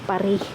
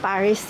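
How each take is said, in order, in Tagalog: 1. Tahimik ang huling s. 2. Binibigkas ang huling s. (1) "Kasi diba yung last letter nga hindi siya binabasa" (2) "Hindi naman Paris yung pronunciation nila dito"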